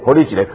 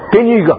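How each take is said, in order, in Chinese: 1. 这是用台湾闽南语说的。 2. 这是用山东话说的。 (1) "听不懂台语是吧？" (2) "我用山东话。"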